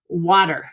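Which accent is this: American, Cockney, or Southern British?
American. It is said in an American accent. "in American English, for example, we say"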